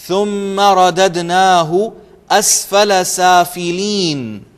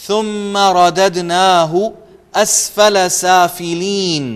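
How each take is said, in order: No difference in how they are said.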